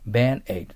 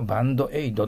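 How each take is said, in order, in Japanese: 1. dの後に母音は発音しません。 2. dの後に母音を発音します。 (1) "D とT の後の母音は切ってください。" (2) "これをバンドエイドと言わないように"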